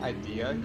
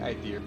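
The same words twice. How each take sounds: First: The word ends plainly with no R sound. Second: The word ends with a slight added R sound. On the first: "instead of saying idea" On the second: "Like you add an R to it"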